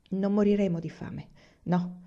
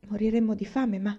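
First: "Non moriremo di fame" as a falling statement; answering. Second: "Moriremmo di fame" asked, pitched a little up; questioning. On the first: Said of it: "rispose mamma". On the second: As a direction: ask "Moriremmo di fame" as an anxious child's question. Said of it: "alzò la testa e chiese". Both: A narrator's reading.

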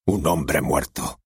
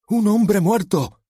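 First: Said in the usual way. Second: High, slow, over-the-top shout; bawled line. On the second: Acted. Nervous actor-policeman bellows his line, high and loud. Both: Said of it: "se desgañitó".

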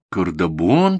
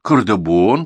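First: "Кардабон?" asked back with a puzzled rising tune; boy doubting grandma's city name; asking back. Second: "Кардабон" stated firmly and a bit louder as a confirmation; grandma affirming the name to her grandson; confirming. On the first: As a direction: question the odd word "Кардабон?". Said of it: "переспросил мальчик". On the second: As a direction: insist on "Кардабон". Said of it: "подтвердила баба Дуня". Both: Acted.

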